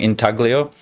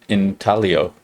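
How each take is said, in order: First: The G sound is clearly pronounced. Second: The G sound is left silent. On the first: The speaker calls it wrong. "I was saying intaglio" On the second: The speaker calls it right. "Like the G is silent"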